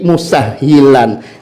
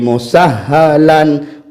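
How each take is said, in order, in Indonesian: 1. Vokal setelah huruf h ganda adalah 'i'. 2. Vokal setelah huruf h ganda adalah 'a'. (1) "Jadi musahhilan sahabat, bukan musahhalan" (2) "Beliau membacanya seperti ini"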